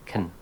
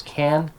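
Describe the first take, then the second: First: "can" shrunk to a quick kn; unstressed "can", vowel nearly gone; weak form can. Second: "can" with a clear open a vowel; stressed, fully voiced "can"; full form can. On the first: Teacher contrasting modal verb forms, weak form. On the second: Teacher contrasting modal verb forms, strong form. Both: Shown as a demonstration. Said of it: "Modal verbs".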